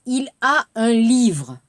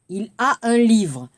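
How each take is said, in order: Both takes have the same delivery.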